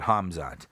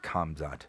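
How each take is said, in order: First: The name begins with a breathy h sound. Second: The name begins with a hard k sound. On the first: The speaker calls it right. "But Hamzat" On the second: The speaker calls it wrong. "It's not Kamzat, but it's like kind of pronounced that way if you're going to say it in English because it starts with a K"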